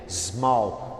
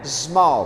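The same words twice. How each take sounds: First: The word begins with an S sound. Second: The word begins with a Z sound. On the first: The speaker calls it right. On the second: The speaker calls it wrong.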